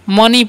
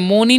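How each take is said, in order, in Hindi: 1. पहला स्वर 'uh' जैसा बोला जाता है। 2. पहला स्वर 'oh' जैसा बोला जाता है। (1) "मनी पढ़ते हैं" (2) "मोनी नहीं पढ़ना है"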